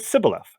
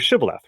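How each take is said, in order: First: The word begins with an 's' sound. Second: The word begins with a 'sh' sound. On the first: The speaker is from Ephraim. The speaker calls it wrong. "They have a local dialect that they say it as Sibboleth" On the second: The speaker is not from Ephraim. The speaker calls it right. "If they don't say it correctly you die"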